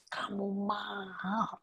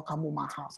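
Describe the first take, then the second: First: Very soft, slow half-whisper; hushed awe. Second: Said in the usual way. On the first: Real, not acted. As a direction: whisper it slowly, letting it sink in. Preacher repeats key phrase in awe. (berbisik pelan penuh takjub)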